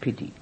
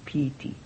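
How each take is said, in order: First: It is said like the English word pity. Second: It is said with the Pali pronunciation. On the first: The speaker calls it wrong. "not the English piti" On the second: The speaker calls it right. "the piti"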